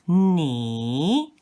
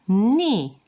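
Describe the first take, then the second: First: It is said with the third tone. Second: It is said with the fourth tone. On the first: "The third one" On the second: "the fourth one is ni"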